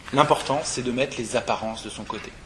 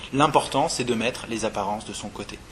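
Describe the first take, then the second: The two takes are said the same way.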